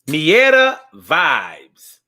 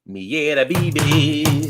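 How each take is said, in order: First: It is said in an English way. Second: It is said in a Spanish way.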